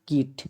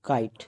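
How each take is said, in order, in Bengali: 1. এই স্বরধ্বনিটি একটি ছোট 'i' ধ্বনি। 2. এই স্বরধ্বনিটি একটি লম্বা 'eye' ধ্বনি। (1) "নট কিট" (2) "আয়ের উচ্চারণটা আয়ের মতো হবে"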